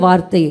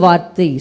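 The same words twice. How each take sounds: Both takes have the same delivery.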